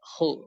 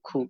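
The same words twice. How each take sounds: First: The syllable is pronounced heavy and full. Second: The syllable is pronounced thin and light. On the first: The speaker calls it right. "খু মোটা উচ্চারণ" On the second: The speaker calls it wrong. "যাতে এমন না হয় যে খু খু খু খু"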